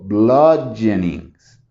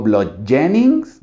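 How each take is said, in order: First: BLUDgeonings, first syllable strong, falling end; slow, settled BLUD-je-nings; stress on first syllable. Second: BludGEonings, middle syllable stressed with rising end; slow blud-JE-nings?; wrong middle stress. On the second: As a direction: punch GEO in bludgeonings as a query. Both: Shown as a demonstration. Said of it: "¿Cuál escuchan más fuerte?".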